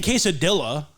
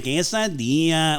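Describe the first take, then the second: First: "quesadilla" with a hard L, kay-sa-DILL-a; anglicized pronunciation. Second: "quesadilla" with hammed-up Spanish vowels; overdone Spanish accent. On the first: Friend showing what he avoids, "quesadilla" as kay-sa-dilla. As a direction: say the double L in "quesadilla" as English L. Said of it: "I'm not saying quesadilla". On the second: Friend showing what he avoids, exaggerated Spanish accent. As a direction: put stank on it, mock Spanish accent. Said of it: "I'm not fucking putting a stank on". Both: Shown as a demonstration.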